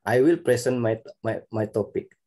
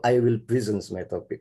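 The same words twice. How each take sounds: First: "present" as PREH-sen, open first e; noun-style pronunciation. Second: "present" as pri-ZENS, i first; verb-style pronunciation. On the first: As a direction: say "present" like the word for a gift. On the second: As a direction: say "present" with short i and a buzzed z. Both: Shown as a demonstration. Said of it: "Which is right?".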